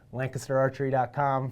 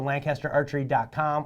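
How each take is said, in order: First: Lancaster is said in a Pennsylvania pronunciation. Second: Lancaster is said in an Illinois pronunciation.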